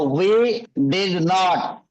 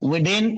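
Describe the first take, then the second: First: Both words 'did not' are said in full. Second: 'Did not' is squeezed into one syllable 'din'.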